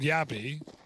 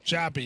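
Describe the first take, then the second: First: The name begins with a Y sound. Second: The name begins with a J sound. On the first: The speaker calls it right. "He's called Yabby" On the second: The speaker calls it wrong. "He's not called Jabby"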